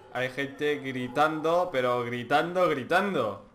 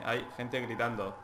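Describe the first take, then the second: First: "gritando" stretched slow and stressed; slow emphasis. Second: Said in the usual way. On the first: Real, not acted. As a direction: lean hard on each "gritando". Ripete la frase più lentamente.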